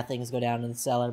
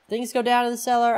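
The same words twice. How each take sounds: First: Said in the usual way. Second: "Things go down in the cellar?" as a high, loud question; incredulous question. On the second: Real, not acted. Questions it, then concedes it.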